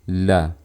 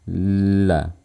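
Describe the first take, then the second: First: The syllable is said quickly, at normal speed. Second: The syllable is drawn out slowly. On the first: "Tapi pelafalan normalnya kayak gini" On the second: "Kalau digerak lambat kayak gini"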